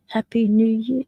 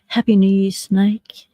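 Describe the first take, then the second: First: Said in the usual way. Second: Breathy whispered New Year wish; whispered greeting. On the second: Real, not acted. Greeting chat members on stream.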